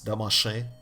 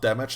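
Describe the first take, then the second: First: It is said with a mock French pronunciation. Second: It is said with a plain English pronunciation. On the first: "as if it was French" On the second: "it's not damage"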